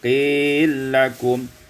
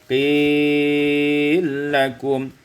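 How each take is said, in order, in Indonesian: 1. Vokal panjang dibaca sebentar. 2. Vokal panjang dibaca dengan panjang sedang.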